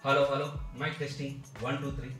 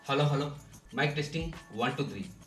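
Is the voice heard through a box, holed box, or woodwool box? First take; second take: woodwool box; box. First: The voice comes from inside a woodwool board box. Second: The voice comes from inside a closed box. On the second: "మైక్రోఫోన్ని బయట పెట్టి box లోపల తలబెట్టి మాట్లాడుతున్నాను"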